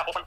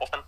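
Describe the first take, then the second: First: "ऑफन" with the t silent; pronunciation as taught. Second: "ऑफन" said with a t, off-tun; sounded-t pronunciation. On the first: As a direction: drop the t in "ऑफन", off-un. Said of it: "अब हमें सिखाया ऑफन". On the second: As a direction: put a t after the f in "ऑफन". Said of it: "मैंने एक दिन पढ़ दिया था इसको". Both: Shown as a demonstration.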